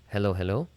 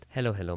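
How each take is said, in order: First: The voice is recorded at a higher gain. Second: The voice is recorded at a lower gain. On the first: "if I lower this down to about seventy-five" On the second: "if I go to fifty percent"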